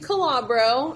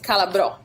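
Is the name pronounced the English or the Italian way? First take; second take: English; Italian. First: The name is said with an English pronunciation. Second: The name is said with an Italian pronunciation. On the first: "it's what I'll take for the English pronunciation of it" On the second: "the real way to do it, if you wanted to practice it the Italian way"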